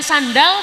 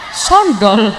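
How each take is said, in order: First: Both vowels are pronounced as an open 'a'. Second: Both vowels are pronounced as a rounded 'o'. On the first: "Kalau jenengan sandal" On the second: "Surabaya tuh cenderung semuanya menggunakan O"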